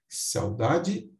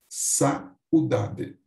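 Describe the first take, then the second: First: The 'au' is one gliding syllable: three syllables. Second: The 'a' and 'u' are split: four syllables. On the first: "como um ditongo" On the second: "ou um hiato"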